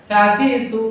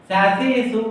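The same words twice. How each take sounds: No difference in how they are said.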